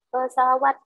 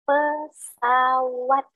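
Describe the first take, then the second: First: The word is articulated unclearly, sounds blurred. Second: The word is articulated slowly, every sound clear. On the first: The speaker calls it wrong. "pengucapannya belum jelas" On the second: The speaker calls it right. "kita jelaskan saja pesawat"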